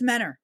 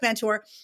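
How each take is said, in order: First: The t after the n is dropped. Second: The t after the n is pronounced. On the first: This is how local people say the name. The speaker calls it right. "but it's Menor" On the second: This is how people from elsewhere say the name. The speaker calls it wrong. "It looks like Mentor"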